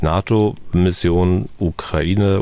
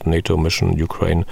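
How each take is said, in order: First: The phrase is pronounced with German sounds. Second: The phrase is pronounced with English sounds.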